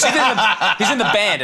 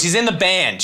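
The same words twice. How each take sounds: First: Snapping impatiently. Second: Said in the usual way. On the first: Retold or imitated. Little girl snaps at the comedian about the band, mock impatient. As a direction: bite back at him, fed up. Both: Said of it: "She snaps at me".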